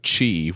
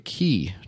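First: The word is said with a Chinese-style pronunciation. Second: The word is said with an anglicized pronunciation. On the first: "which I know is how you say it in the traditional Chinese" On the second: "because it's Americanized. It's anglicized"

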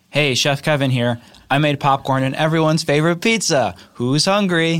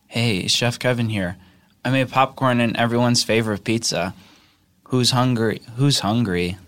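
First: It is said in a plain, ordinary way. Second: It is said in a sexy, sultry way.

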